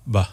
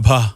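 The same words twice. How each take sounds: First: "ഭ" with little breath, like ba; weaker bha. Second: "ഭ" with a strong puff of breath; aspirated bha. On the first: Singer contrasting two kinds of bha, weakly breathed "ഭ". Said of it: "രണ്ടും ഭ തന്നെയാ". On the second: Singer showing how much breath a word gets, aspirated "ഭ". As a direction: give "ഭ" its full breath, forcefully. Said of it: "ഒരു വാക്കിൽ എത്ര പ്രാണൻ കൊടുത്തു". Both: Shown as a demonstration.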